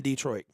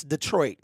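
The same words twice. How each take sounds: First: "Detroit" said as DEE-troit; "Detroit" with dee as first syllable; wrong DEE-troit. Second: "Detroit" said as duh-TROIT; "Detroit" with the weight on troit; correct duh-troit. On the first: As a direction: say "Detroit" with a long ee up front. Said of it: "It's never been Detroit". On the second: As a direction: say "Detroit" with a short duh to start. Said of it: "the way you pronounce". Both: Shown as a demonstration.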